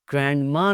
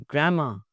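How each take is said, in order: First: ग्रैंडमा with the d sounded; audible d before ma in ग्रैंडमा; mispronounced D. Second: ग्रैंडमा as gram-ma; silent D. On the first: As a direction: say ग्रैंडमा as grand-ma. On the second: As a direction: merge n into m in ग्रैंडमा. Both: Shown as a demonstration. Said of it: "ग्रैंडमा नहीं".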